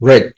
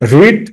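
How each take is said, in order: First: The vowel is short, like 'red'. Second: The vowel is long, like 'reed'. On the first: It is the past tense. "রেড শুধু প্রোনাউন্সিয়েশনে একটু difference হবে" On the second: It is the present tense. "Past ফর্মও যা present ফর্মও তা"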